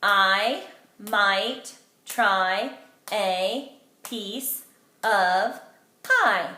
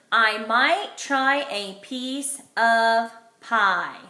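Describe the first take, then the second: First: I might try a piece of pie, each word hit separately, very slow, with a pause after every beat; pounding each word. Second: Every word slow and separate, clearly louder; slow model sentence. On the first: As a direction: tap out every word like a drumbeat. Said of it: "Let's pound it together". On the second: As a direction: read it aloud slowly, like a model sentence for the class. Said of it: "today my sentence is". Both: Shown as a demonstration.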